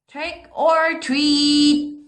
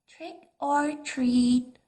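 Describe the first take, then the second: First: It is said a little louder. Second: It is said very softly.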